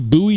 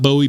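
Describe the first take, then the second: First: The first syllable sounds like 'boo'. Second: The first syllable sounds like 'boh'. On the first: The speaker calls it right. "It should be Bowie" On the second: The speaker calls it wrong. "not Bowie"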